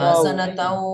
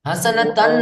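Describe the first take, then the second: First: The n sound merges into a following w sound. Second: The word ends with a clear n sound. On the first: The speaker calls it right. "আমি বলি" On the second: The speaker calls it wrong. "হাসানাতান নয়"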